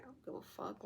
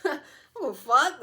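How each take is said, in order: First: Soft, under-the-breath dismissal; hushed, could-not-care-less aside; quiet indifference. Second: High, loud, brazen declaration; gleefully defiant outburst; loud defiance. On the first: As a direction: toss it off barely voiced. Indifferent villain, first quiet take. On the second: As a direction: proclaim not caring at full volume. Same words repeated, loud and defiant. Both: Acted.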